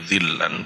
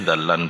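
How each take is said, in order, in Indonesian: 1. Vokal pertama adalah i. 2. Vokal pertama adalah a. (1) "dzillan boleh" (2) "dzallan boleh"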